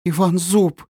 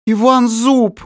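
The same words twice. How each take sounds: First: A high, gasping first cry of the name; horrified recognition. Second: Much higher and louder, a shrieking cry of the name; terrified shriek. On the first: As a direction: realise in terror who he is, pitch up. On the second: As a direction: scream his name in horror. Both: Acted. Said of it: "воскликнула она не своим голосом".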